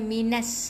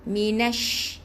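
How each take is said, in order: First: The word ends with an s sound. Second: The word ends with an sh sound. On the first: The speaker calls it wrong. "bukan minas" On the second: The speaker calls it right. "Jadi minash"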